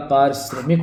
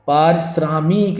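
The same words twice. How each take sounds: First: Said in the usual way. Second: पारिश्रमिक as "parsraamik", long aa; slow, lengthen the vowel before "mik"; mispronounced पारिश्रमिक. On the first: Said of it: "पारिश्रमिक होता है". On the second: Shown as a demonstration. Teacher showing the wrong form, पारिश्रमिक as "parsraamik". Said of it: "पारिश्रमिक नहीं होता".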